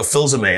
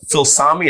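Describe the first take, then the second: First: Phil Zame said as zuh-MAY; correct name. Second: Phil Sami said as Sah-mee, wrong; mispronounced name. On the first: Correcting the teacher on his name. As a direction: Phil Zame, stress on the last syllable MAY. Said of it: "and I'd go". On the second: Mispronouncing his name at roll call. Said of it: "they still couldn't get it". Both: Shown as a demonstration.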